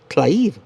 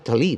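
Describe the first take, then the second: First: The T and L are said together. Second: A vowel is said between T and L. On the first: "Yo lo pronuncio Tlaib" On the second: "oigo que los noticieros dicen Talib"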